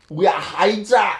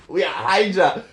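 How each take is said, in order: First: Shouted, higher, proud villain declaration; defiant shout. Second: Said in the usual way. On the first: Acted. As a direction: bellow the name like a battle cry. Captured spy declares allegiance.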